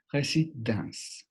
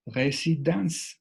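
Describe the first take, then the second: First: "résidence" slow, cut off right after the n sound; "résidence" slow, final e dropped; cut before silent letter. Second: "résidence" said slowly, final e silent, ending on "dans"; "résidence" slow and higher, no final vowel. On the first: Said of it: "Justo en ese momento es donde cortaremos la pronunciación". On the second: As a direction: stretch "résidence" and stop before the e. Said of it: "la E final no tiene sonido". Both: Shown as a demonstration.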